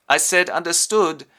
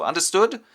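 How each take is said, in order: First: Loud UNDERSTOOD with falling end; insistent repeat. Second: Loud UNDERSTOOD with rising end; commanding question. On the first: Field marshal repeats order. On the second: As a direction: ask "Understood?" loudly, voice lifting. Field marshal demands confirmation. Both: Retold or imitated.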